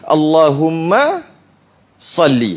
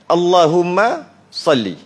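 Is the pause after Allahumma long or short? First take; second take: long; short. First: There is a long pause after Allahumma. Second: There is a very short pause after Allahumma. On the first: The speaker calls it wrong. "Lama sangat" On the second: The speaker calls it right. "Nak bagi dia ada gap aja"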